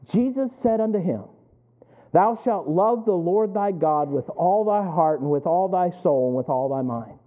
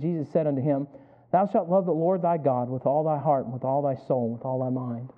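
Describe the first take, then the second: First: It is read at a slower pace. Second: It is read at a faster pace.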